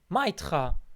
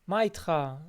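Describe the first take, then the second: First: It is said in a harsh, aggressive tone. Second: It is said in a warm, friendly tone. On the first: The speaker is being rude. The speaker calls it wrong. "asks you in a very aggressive way" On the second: The speaker is glad to see you. The speaker calls it right. "your good friend... says to you, hey"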